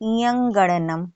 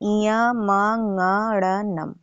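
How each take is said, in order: First: There is no 'm' sound after 'iya'. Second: An 'm' sound is heard after 'iya'. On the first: The speaker calls it wrong. "उसको बोलते हैं इयंग, इयंगणनम ... ये सब उच्चारण गलत है" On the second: The speaker calls it right. "सही उच्चारण है"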